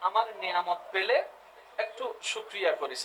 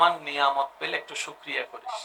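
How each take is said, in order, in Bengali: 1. এটি উষ্ণ, স্নেহপূর্ণ সুরে বলা হয়েছে। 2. এটি সাধারণ, নিরপেক্ষ সুরে বলা হয়েছে।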